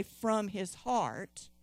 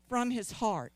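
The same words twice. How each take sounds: First: "from his heart" drawn out slowly for all to repeat; slow call for repetition. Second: Said in the usual way. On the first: Shown as a demonstration. Preacher leads the congregation to repeat, slow and deliberate. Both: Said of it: "everybody say".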